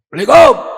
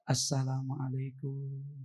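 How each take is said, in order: First: The greeting is said loudly and forcefully. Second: The greeting is said softly and gently.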